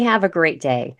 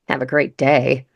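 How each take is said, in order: First: It is said warmly and sincerely. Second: It is said coldly and sarcastically. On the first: The speaker is sorry the talk ended badly. "I really mean, hey, have a great day. And, you know, the tone is kind of, I'm sorry it ended that way" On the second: The speaker seems glad to be rid of them. "take it like"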